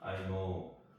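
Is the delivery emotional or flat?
flat. It is said in a dry, monotone way. The speaker calls it wrong. "이런 식으로 이제 무미건조하게"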